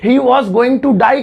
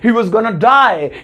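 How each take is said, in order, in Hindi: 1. इसे पूरे रूप 'going to' के साथ बोला जाता है। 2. इसे छोटे रूप 'gonna' के साथ बोला जाता है।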